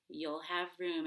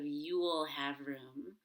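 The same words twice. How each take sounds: First: The small words are quick, with time on room. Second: The small words are slow and fully pronounced. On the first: The speaker calls it right. "you can say" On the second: The speaker calls it wrong. "instead of"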